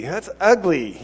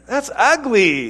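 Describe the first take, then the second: First: Said in the usual way. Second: Higher, slow, laughing through the words; laughing disapproval. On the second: Real, not acted. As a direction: chuckle it out in disgust. Reacting to the mock show-off.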